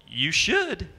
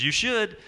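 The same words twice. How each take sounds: First: Lightly put-on Southern drawl, a touch higher; mock Southern twang on two words; bad Southern accent. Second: Southern drawl repeated, higher; hammy Southern twang on both words; bad Southern accent. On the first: A hint of Southern accent as Max Baer answers. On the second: Southern accent repeated to the audience. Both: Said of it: "That was ba-, bad Southern accent".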